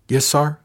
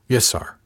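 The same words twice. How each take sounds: First: Higher voice, rising on sir; curious, questioning lilt. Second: A touch of relief; a little relieved. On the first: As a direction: ask it curiously, lifting "sir". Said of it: "she asked curiously". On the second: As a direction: sound mildly relieved, ending on a fall. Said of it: "sounding a little relieved". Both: A narrator's reading.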